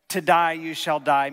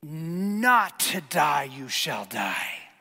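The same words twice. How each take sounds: First: DIE stressed loudly in "To die you shall die"; firm, loud punch on "die"; emphatic. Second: "Not" drawn out long and stressed; slow, heavy emphasis starting on a stretched "Not"; emphatic contradiction. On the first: Preacher quotes God's command to Adam, emphatic. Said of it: "God's emphatic statement". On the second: Preacher voices serpent contradicting God, emphatic contradiction. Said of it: "his own emphatic statement of contradiction". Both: Acted.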